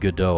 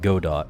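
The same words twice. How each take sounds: First: Godot is said with a French pronunciation. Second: Godot is said the way it is spelled. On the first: The speaker calls it wrong. "I hate that pronunciation, the freaking French pronunciation" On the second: The speaker calls it right. "because that's the way it's freaking spelled"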